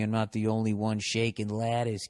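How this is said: It is read in a Boston accent.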